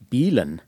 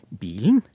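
First: It has a western Norwegian tone melody. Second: It has an eastern Norwegian tone melody. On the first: "i stedet for å si bilen" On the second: "pakket inn i østnorske toner"

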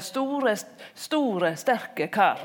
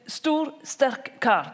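First: Said with an inserted vowel in the words. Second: Said clipped, with no extra vowels inside. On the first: "hvis du sier store, sterke kar ... den der innskottsvokalen" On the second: "det ikke blir en stor, sterk kar. Det er litt sånn stakkato"

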